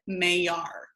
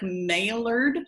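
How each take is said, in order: First: The name is said the French way. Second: The name is read out the English way. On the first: The speaker calls it right. "it's a Frenchman's last name, ... you pronounce it Maillard" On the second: The speaker calls it wrong. "I know it looks like Maillard"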